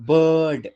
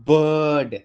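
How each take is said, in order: No difference in how they are said.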